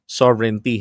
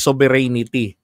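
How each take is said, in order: First: It is said as 'sovereign' followed by 'tea'. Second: It is not said as 'sovereign' plus 'tea'. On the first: The speaker calls it right. "sovereign at saka yung tsaa" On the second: The speaker calls it wrong. "Hindi po sovereignty"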